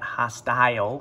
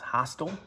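First: The second syllable has a long i sound. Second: The second syllable has a short i sound. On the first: The speaker calls it wrong. "You might think that you'd pronounce that hostile because you got the I and then the E, I consonant E" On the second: The speaker calls it right. "but it's pronounced hostile"

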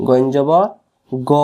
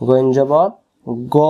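Both takes have the same delivery.

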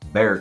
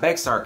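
First: The name is said without a ks sound. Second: The name is said with a ks sound. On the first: The speaker calls it right. "we know it's got an X in it. We just don't say it" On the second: The speaker calls it wrong. "it's not Bexar County. Don't go around calling it that"

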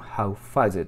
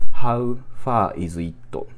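First: The words run together into one linked chunk. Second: Each word is said separately and fully.

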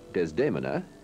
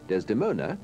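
First: The name is pronounced the Italian way. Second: The name is pronounced the English way.

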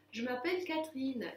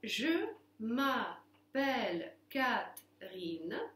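First: It is read quickly as one smooth phrase. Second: It is read slowly, syllable by syllable. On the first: "И теперь быстро" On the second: "сейчас я по слогам прочту"

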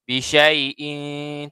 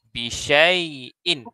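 First: The final nasal sound is held long. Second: The final nasal sound is kept short. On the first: The speaker calls it wrong. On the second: The speaker calls it right.

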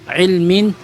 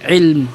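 First: The word ends with a final 'in' sound. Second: The word ends on the 'm' sound. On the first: The speaker continues on to another word. "binibigkas lamang siya kapag ka ituloy mo yung salita mo" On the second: The speaker stops after this word. "kung wala siyang karugtong at mag-stop ka lang"

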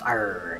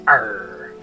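First: It has only a mild pirate voice. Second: It has a strong pirate voice.

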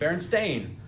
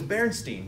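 First: The last syllable rhymes with 'rain'. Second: The last syllable rhymes with 'line'. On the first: This is the actual name. The speaker calls it right. "It's actually Berenstain" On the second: This is the version many people remember. The speaker calls it wrong. "They remember it like with the EI instead of the AI"

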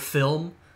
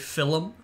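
First: The word has a standard pronunciation. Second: The word has an Irish-style pronunciation.

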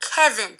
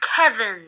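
No difference in how they are said.

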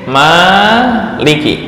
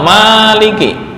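First: The first vowel is held long. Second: The first vowel is kept short. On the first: "panjang atau pendek? Panjang"

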